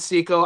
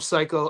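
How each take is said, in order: First: The first syllable sounds like 'say'. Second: The first syllable sounds like 'sigh'. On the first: This is how the person himself says it. "He pronounces it Seiko" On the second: This is a playful nickname version. "I like calling him Psycho"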